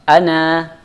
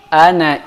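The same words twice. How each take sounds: First: The final vowel is long, before a stop. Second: The final vowel is short, running on. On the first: "saya berhenti pada kata ana, maka alifnya harus saya baca" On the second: "kalau saya melanjutkan bacaan seterusnya, ya, maka saya tidak boleh baca alifnya"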